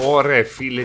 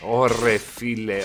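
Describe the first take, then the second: First: "ωρε φίλε" said louder and sharper. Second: Slow stretched "Ωρε φίλε"; "Ωρε φίλε" dragged out slowly in disbelief; drawn out. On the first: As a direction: punch out "ωρε φίλε" with more force. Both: Real, not acted.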